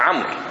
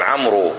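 First: The name ends on the consonant r. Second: The name ends with an added 'oo' vowel. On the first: The speaker calls it right. "اسمه عمر" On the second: The speaker calls it wrong. "الناس الآن لجهلهم يلفظونها"

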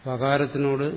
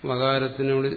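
Both takes have the same delivery.

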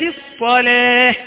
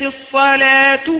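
First: The word ends the phrase with a full stop. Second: The word runs straight on into the next word. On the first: "حال الوقف تقول" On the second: "حالة الوصل تقول"

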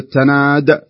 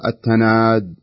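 First: The final d has a short clear echo. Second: The final d is weak with no echo. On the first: The speaker calls it right. "بدل ما يقول التناد" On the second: The speaker calls it wrong. "بدون قلقلة"

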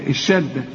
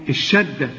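No difference in how they are said.

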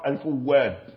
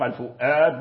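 First: The middle consonant is a w sound. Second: The middle consonant is a glottal stop. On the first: "وبعضهم نطق الفواد" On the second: "بعضهم نطق الفؤاد بالهمزة"

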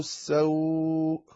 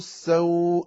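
First: The vowel is stretched for about four counts. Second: The vowel is stretched for about two counts. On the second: "2 حركات"

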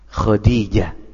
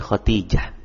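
First: The name ends without a t sound. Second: The name ends with a t sound. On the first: The speaker calls it right. "yang benar apa? Khadijah" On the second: The speaker calls it wrong. "bukan Khadijah"

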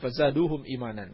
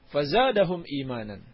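First: The vowel after the d is 'u'. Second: The vowel after the d is 'a'. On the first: The speaker calls it wrong. "bukan fazaduhum imanan" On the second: The speaker calls it right. "yang benar adalah fazadahum imanan"

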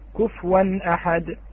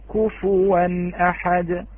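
First: The f sound has no vowel after it. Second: The f sound has a rounded u vowel after it. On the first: The speaker calls it wrong. "كثير من يقرأ بإسكان الفاء" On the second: The speaker calls it right. "لابد ملاحظة ضم الشفتين في الفاء"

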